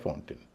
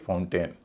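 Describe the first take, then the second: First: The last syllable has a short reduced vowel. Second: The last syllable has a full 'ay' vowel. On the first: The speaker calls it right. "ए न होके अ या ई होगा" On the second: The speaker calls it wrong. "न कि फाउंटेन। फाउंटेन नहीं कहेंगे।"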